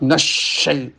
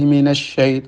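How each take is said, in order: First: The word is forced and overdone with strain. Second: The word is pronounced plainly without strain. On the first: The speaker calls it wrong. "Itu ya berlebihan juga takalluf" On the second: The speaker calls it right. "sudah cukup"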